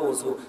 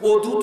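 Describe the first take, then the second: First: The middle consonant sounds like z. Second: The middle consonant sounds like d. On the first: Everyone says it this way. The speaker calls it right. "বলেন তো অজু" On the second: Nobody says it this way. The speaker calls it wrong. "অজু তো বলেন না"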